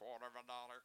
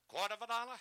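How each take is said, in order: First: It is said in a flat monotone. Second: It is said with rhythm, going up and down.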